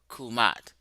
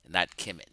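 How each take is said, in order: First: The first vowel sounds like 'oo'. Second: The first vowel sounds like 'e'. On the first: The speaker calls it right. "you were right about the pronunciation" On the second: The speaker calls it wrong.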